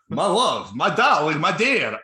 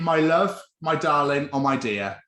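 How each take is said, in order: First: It is said in a Dracula impression voice. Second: It is said in a normal speaking voice.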